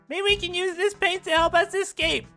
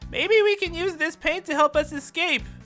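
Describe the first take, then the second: First: The voice is pitched higher. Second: The voice is pitched lower.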